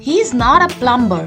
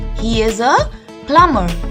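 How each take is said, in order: First: The B in the word is sounded. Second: The B in the word is silent. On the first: The speaker calls it wrong. "No, he is not a plumber" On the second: The speaker calls it right. "the letter B in this word remains silent"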